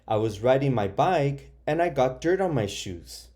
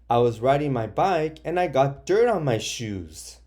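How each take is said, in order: First: It is read in a calm, plain tone. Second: It is read in an upset, exclaiming tone. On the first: The person is just telling what happened. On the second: The person is unhappy about the dirt.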